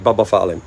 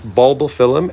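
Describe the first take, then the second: First: The first syllable is said 'bub' without L. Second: The first syllable is said 'bulb' with L. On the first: The speaker calls it wrong. "like I used to say Bubba Phylum" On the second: The speaker calls it right. "But it's not. It's bulbophyllum"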